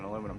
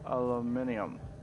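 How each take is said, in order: First: The word has four syllables, without an i sound. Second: The word has five syllables, with an i sound. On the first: The speaker calls it wrong. "It makes the I silent" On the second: The speaker calls it right. "I think it should be pronounced aluminium"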